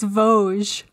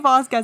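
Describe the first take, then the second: First: The name is said without a 'k' sound. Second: The name is said with a 'k' sound. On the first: The speaker calls it right. "It's Vosges" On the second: The speaker calls it wrong. "we're pronouncing it really, really badly"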